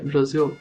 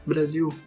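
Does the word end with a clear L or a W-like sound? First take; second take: clear L; W-like sound. First: The word ends with a clear L sound. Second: The word ends with a W-like vowel sound. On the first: The speaker calls it right. "em inglês, ela se pronuncia Brasil" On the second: The speaker calls it wrong. "a gente pronuncia ui"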